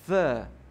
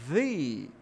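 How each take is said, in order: First: The vowel is a short "uh" sound. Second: The vowel is a long "ee" sound. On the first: The next word starts with a consonant sound. "já vou pronunciar diferente" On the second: The next word starts with a vowel sound. "com som de i, parece, né? Mas só que ele é prolongado"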